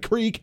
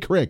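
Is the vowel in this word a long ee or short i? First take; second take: long ee; short i. First: The vowel is a long ee sound. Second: The vowel is a short i sound. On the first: The speaker calls it wrong. "Not a creek" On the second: The speaker calls it right. "but it is a creek. C-R-I-K"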